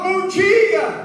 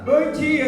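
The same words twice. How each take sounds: First: It is said loudly, with full energy. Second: It is said weakly, with little energy.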